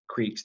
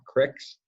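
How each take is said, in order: First: It is said with a long 'ee' vowel. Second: It is said with a short 'i' vowel.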